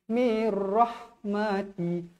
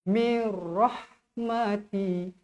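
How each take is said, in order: Both takes have the same delivery.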